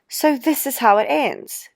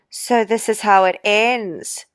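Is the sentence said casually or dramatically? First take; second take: casually; dramatically. First: It is said casually, with no trailing off. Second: It is said dramatically, trailing off slowly.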